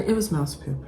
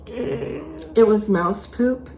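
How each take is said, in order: First: Said in the usual way. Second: Slow, dragged out disbelief on poop; slow emphatic repeat. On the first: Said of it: "plain first take". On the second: Real, not acted. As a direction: stress on poop, drawn out slowly with a rise. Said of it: "repeated slow, stressed".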